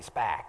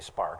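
First: The word is said in a Boston accent. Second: The word is said in a general accent. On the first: "They say spack" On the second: "They don't say spark"

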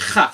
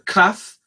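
First: It begins with a throaty ch sound. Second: It begins with a hard k sound. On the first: The letter has no dagesh. "if it does not have a dagesh" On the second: The letter has a dagesh. "that's kaf degusha"

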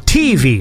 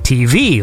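First: The stress falls on the first syllable, T. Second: The stress falls on the second syllable, V. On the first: "Like they go TV like that" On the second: "like I put the emphasis on the V"

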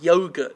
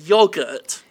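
First: The word is said with an American pronunciation. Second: The word is said with a British pronunciation. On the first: The speaker has picked up the local way of saying it. The speaker calls it wrong. "I'm saying yogurt now" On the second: This is the speaker's home way of saying it. The speaker calls it right. "I should be saying yogurt"

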